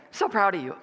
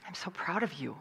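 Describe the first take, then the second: First: Tossed-off, careless praise; offhand, throwaway compliment; flippant. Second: Whispered, heartfelt praise; hushed words of pride; tender whisper. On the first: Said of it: "Sometimes we'll flippantly say". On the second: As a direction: take a moment and whisper it. Taking time to say it tenderly. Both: Acted.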